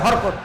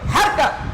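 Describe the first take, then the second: First: The vowels are rounded Bengali-style, like horkot. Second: The vowels are clear open a sounds. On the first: The speaker calls it wrong. "কেউ কেউ হরকত, হার মানে এটা বাংলা কায়দায়" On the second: The speaker calls it right. "কিন্তু স্পষ্ট শুদ্ধ হারকাত"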